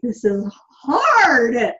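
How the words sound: It sounds angry and frustrated.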